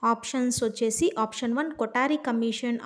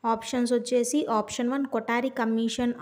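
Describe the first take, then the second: The two takes are said the same way.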